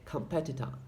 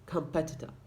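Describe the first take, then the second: First: The final vowel is a reduced schwa. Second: The same.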